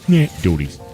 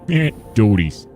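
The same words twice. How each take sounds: First: It is said in a normal speaking voice. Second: It is said in an imitation of Peter's voice.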